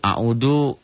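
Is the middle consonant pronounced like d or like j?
d. The middle consonant sounds like a plain d. An untrained Sundanese speaker says it this way. "Kalau orang Sunda yang gak belajar jadi a'udu"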